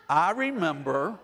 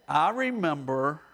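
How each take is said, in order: Both takes have the same delivery.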